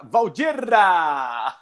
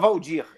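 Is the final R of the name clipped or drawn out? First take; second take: drawn out; clipped. First: The name ends with a long, rolled R. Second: The name ends with a short, clipped R. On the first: "Ele fala Valdirra! ... Ele pega o R" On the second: "ele não fala Valdir"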